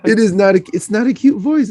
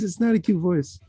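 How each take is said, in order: First: Raised testing voice; trying out a higher voice. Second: Softer, processed sounding voice; altered mic voice. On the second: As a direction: say it through the odd voice filter. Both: Real, not acted. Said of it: "I am not used to that voice".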